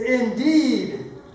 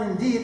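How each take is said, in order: First: The word is said with strong, passionate feeling. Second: The word is said calmly, without strong feeling. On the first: The speaker calls it right. "It is a passionate word" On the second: The speaker calls it wrong. "it is not indeed"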